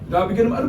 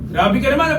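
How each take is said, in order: First: It is said in a cool leading-man voice. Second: It is said in an ordinary supporting-character voice. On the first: The speaker is the handsome, arrogant lead. "Pero pag bida" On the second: The speaker is not the lead character. "kung hindi to bida, ang boses ko nito"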